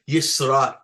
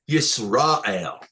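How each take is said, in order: First: The stress is on the last syllable. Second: The stress is on the middle syllable. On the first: "Because it's under the Aleph" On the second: "If it was under uh, the the the the, the uh, Resh, it would be"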